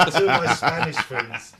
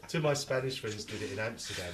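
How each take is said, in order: First: Laughing. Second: Said in the usual way. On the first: Real, not acted. Starts story laughing.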